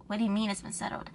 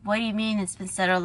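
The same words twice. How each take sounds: First: Quick, much softer question; subdued retold question, hurried; restrained reply. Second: Mildly indignant demand, as in thought; acted-out inner protest. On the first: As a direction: hold back and ask it quietly. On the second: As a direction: challenge it in disbelief, retold. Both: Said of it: "that's what I said in my head".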